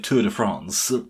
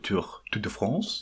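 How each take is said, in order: First: It is said in a southern French way. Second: It is said in a northern French way. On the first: "if in the south of France, that's how you pronounce it" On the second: "if you're from the north of France"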